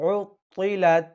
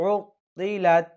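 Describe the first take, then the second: The two takes are said the same way.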